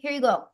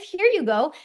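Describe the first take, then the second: First: It is said in a flat, neutral tone. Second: It is said in an emotionally colored tone. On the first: Every choice is supported equally, without judgment. The speaker calls it right. "notice how my inflection didn't change" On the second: Some choices are favored over others. The speaker calls it wrong. "it's not like"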